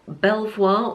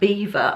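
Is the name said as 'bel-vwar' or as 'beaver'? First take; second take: bel-vwar; beaver. First: It is said as written, bel-vwar. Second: It is said like the word beaver.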